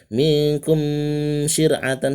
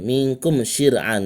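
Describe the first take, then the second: First: The m is held with lips closed. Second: The m is pronounced clearly, not held. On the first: The speaker calls it wrong. "tidak boleh tahan, salah" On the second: The speaker calls it right. "Jadi jelas idhar"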